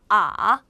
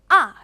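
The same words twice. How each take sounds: First: The pitch dips low and then rises. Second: The pitch falls sharply from high to low. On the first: "꺾어서 발음을 해주시면 돼요" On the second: "세게 내려쳐서"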